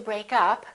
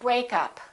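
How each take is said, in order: First: The stress is on the second part. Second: The stress is on the first part. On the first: It is a verb meaning to separate. "we stress the second part" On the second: It is a noun naming the separation. "we stress the first part"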